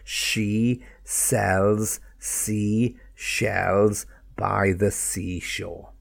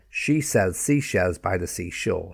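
First: The sentence is said at a slow pace. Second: The sentence is said at a fast pace. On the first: "And then more slowly get those S sounds" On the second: "Let me do it a little quicker"

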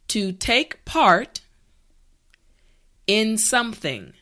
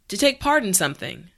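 First: The phrase is said slowly and carefully. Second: The phrase is said at normal speaking speed. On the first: "repeat after me" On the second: "now let's say it at a normal pace"

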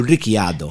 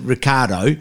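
First: The name is said the original way. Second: The name is said the Australian way. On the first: This is the name's actual pronunciation. The speaker calls it right. "It's actually Ricciardo" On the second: This is how people in Australia say the name. The speaker calls it wrong. "in Australia we pronounce it Ricciardo, but it's not"

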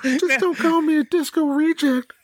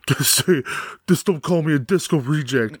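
First: It is said in the character's put-on voice. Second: It is said in a voice unlike the character's. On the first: The speaker calls it right. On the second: The speaker calls it wrong.

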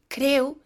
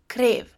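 First: It ends in a u sound, Northeastern style. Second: It ends in a v sound, standard style.

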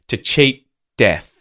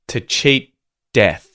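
The two takes are said the same way.

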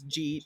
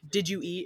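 First: The words are blended into one short syllable. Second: The three words are said separately and fully.

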